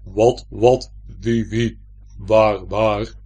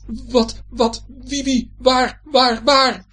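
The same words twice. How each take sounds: First: Loud, weighty echo of a stammer; booming, low-set mimicry; heavy mimicking voice. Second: High, loud panicked stammer; high-pitched frightened stutter; startled stuttering. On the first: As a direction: repeat the words in a big heavy voice. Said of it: "zegt de stem". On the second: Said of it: "stottert Joris". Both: A narrator's reading.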